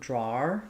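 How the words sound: It has a back vowel ending in an R sound. "some British accents also will use and put an R there"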